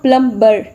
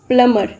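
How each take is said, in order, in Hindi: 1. "b" ध्वनि उच्चारित होती है। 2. "b" ध्वनि मौन है। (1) "इट्स नॉट प्लम्बर" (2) "अगेन यहाँ पर बी साइलेंट है"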